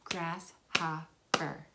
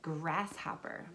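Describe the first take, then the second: First: Slow "Grasshopper." with each syllable pulled apart; syllables clapped out. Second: Said in the usual way. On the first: Shown as a demonstration. Teacher slowly clapping out the word's syllables for kids. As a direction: stretch "Grasshopper." slowly, one clap per syllable. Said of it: "You clap out the sounds". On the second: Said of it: "what about".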